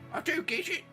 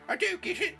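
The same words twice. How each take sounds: First: It is said in a lower-pitched voice. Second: It is said in a high-pitched voice.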